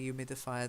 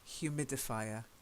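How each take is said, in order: First: The word begins without any H sound. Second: The word begins with a clear breathy H. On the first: "the Americans might say humidifier. They do tend to drop their H's a lot" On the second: "We actually aspirate the H"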